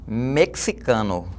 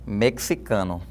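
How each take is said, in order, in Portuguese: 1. O x é pronunciado como ks. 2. O x é pronunciado como ks.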